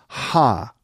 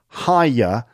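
First: The vowel is flattened to one sound. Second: The vowel glides through three sounds.

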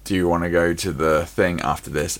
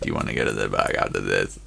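First: It is said in a natural voice. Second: It is said in a robotic voice.

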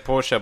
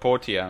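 First: The name is said with two syllables. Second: The name is said with three syllables. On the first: The speaker calls it wrong. "I keep wanting to say Portia" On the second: The speaker calls it right. "Adding that extra syllable is killing me"

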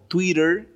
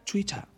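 First: It is said without a British accent. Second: It is said with a British accent.

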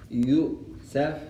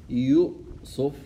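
Both takes have the same delivery.

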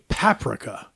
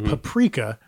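First: It is said in the Canadian way. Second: It is said in the non-Canadian way. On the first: "They say paprika" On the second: "Canadians don't say paprika"

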